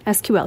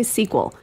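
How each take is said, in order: First: Each letter is spoken separately. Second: It is spoken as a single word. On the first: "You can say the letters, and that's fine" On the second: "You can also say"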